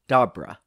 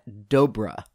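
First: The name does not rhyme with cobra. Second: The name rhymes with cobra. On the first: The speaker calls it wrong. "I pronounced his name as" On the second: The speaker calls it right. "it's pronounced Matt Dobra. As he put it, rhymes with cobra"

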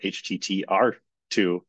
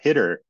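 First: The name is spelled out letter by letter. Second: The name is read as one word. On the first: The speaker calls it wrong. "I used to always pronounce it HTTR2" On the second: The speaker calls it right. "oh, it's a hitter"

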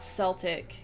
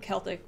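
First: The word begins with a soft S sound. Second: The word begins with a hard K sound. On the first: It names the football team. The speaker calls it wrong. "so not Celtic, that's the football team" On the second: It names the linguistic ethnic group. The speaker calls it right. "Celtic is pronounced with a hard C, so Celtic with like a K"

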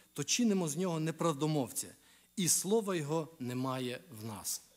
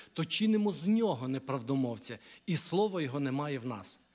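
No difference in how they are said.

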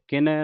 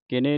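First: The word ends in an "ai" vowel. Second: The word ends in an "e" vowel. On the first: The speaker calls it right. "ਨੰਨੇ ਨੂੰ ਦਲਾਵਾਂ ਲੱਗੀਆਂ" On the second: The speaker calls it wrong. "ਕਿਨੇ ਨਹੀਂ ਪੜਨਾ"

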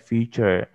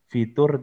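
First: It is pronounced the English way, like 'feature'. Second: It is pronounced the Indonesian way, like 'fitur'. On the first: The speaker calls it right. "tapi bilangnya feature" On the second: The speaker calls it wrong. "jangan bilang fitur"

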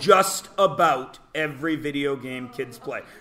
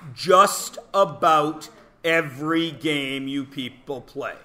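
First: It is said at normal speed. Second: It is said slowly.

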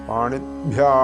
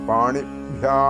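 No difference in how they are said.

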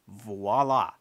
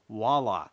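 First: The word begins with a clear V sound. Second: The word begins with a W sound. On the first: The speaker calls it right. "the word you're looking for is voila ... with a V as in Victor" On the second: The speaker calls it wrong. "not voila ... like the city in Washington State"

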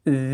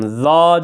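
First: The vowel sounds like a clear e. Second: The vowel sounds like a clear a. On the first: "Z demiyorum" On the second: "Za demiyorum"

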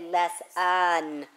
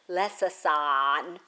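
First: The middle s sound is pronounced only once. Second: Both s sounds in the middle are pronounced separately. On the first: The speaker calls it right. "We say lesson" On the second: The speaker calls it wrong. "we don't even bother to say both of those. We don't say lesson"

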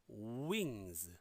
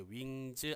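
First: The opening w is clear with rounded lips. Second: The opening w is weak and unrounded. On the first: The speaker calls it right. "들어보세요. 우 발음이 조금씩 들리시나요?" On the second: The speaker calls it wrong. "wings 아니고요"

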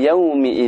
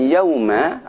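First: The word ends with an 'i' vowel. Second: The word ends with an 'a' vowel. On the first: The speaker calls it right. "akan tapi yaumi idzin dengan dibaca kasrah mimnya" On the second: The speaker calls it wrong. "Jadi bukan yauma"

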